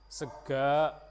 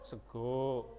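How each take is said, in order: First: The word ends with an open 'a' vowel. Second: The word ends with an 'o' vowel. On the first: This is the Banyumas dialect form. "kalau kita di Banyumas ada yang A" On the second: This is the eastern dialect form. "Kalau di Wetan jadinya Sego"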